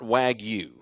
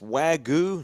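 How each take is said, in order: First: The y sound in the word is pronounced. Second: The y sound in the word is silent. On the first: The speaker calls it wrong. "not wagyu" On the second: The speaker calls it right. "It's wagyu, Not the Y is not pronounced"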